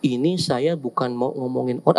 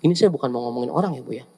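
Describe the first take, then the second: First: Said in the usual way. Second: Quick gossip disclaimer. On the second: Acted.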